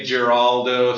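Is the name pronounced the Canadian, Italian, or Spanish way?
Canadian. The name is said with a Canadian pronunciation. "Canadians will say Geraldo"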